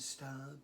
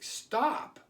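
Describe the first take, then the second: First: The word is said in a voice lacking dominance. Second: The word is said in a firm, dominant voice. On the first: The speaker calls it wrong. "as opposed to stop" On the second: The speaker calls it right. "use a, a dominant voice, like stop"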